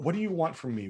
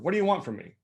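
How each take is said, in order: First: It sounds sincere and helpful. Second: It sounds annoyed and dismissive.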